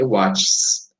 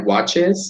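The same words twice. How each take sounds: First: The ending is only an s sound. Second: The ending adds an extra vowel syllable. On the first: The speaker calls it wrong. "se eu tivesse que acrescentar só a letra S" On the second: The speaker calls it right. "bem melhor"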